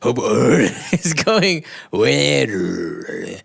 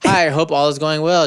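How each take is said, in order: First: It is said in a put-on Japanese accent. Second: It is said in the speaker's own accent.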